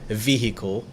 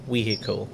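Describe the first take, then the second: First: The word begins with a V sound. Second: The word begins with a W sound.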